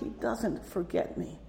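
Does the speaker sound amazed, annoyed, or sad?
sad. It is said in a sad, regretful tone. Being remembered means one's wrongs were seen. "Or sadly"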